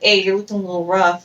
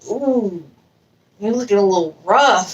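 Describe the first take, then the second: First: It is said in a plain, matter-of-fact way. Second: It is said in an exaggerated, showy way. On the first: The remark is friendly advice. The speaker calls it right. "I didn't have to go into all that extra and just be like" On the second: The remark teases rather than helps. The speaker calls it wrong. "Instead of like"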